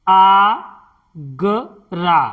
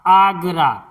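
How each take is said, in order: First: आगरा drawn out slowly, long आ; slow syllable by syllable. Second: Said in the usual way. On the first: Shown as a demonstration. Teacher spelling out a word for students, slowly. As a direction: stretch आगरा out, each sound separate. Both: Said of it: "देखिए".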